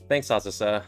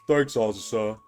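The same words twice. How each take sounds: First: It is said in the reader's normal voice. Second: It is said in a put-on character voice.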